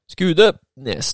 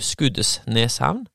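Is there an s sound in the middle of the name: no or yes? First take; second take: no; yes. First: The name has no s sound in the middle. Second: The name has an s sound in the middle. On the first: The speaker is a local of the place. The speaker calls it right. "Det er en S i slutten og i starten, ingen i midten" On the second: The speaker is an outsider to the place. The speaker calls it wrong. "Hvis du ikke er fra Skudeneshavn, så sier gjerne du"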